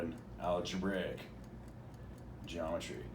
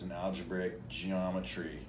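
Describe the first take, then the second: First: The word algebraic carries the stress. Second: The word geometry carries the stress. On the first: The subject is algebra dressed as geometry. "not the algebra" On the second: The subject is geometry approached through algebra. "He puts the emphasis on the geometry"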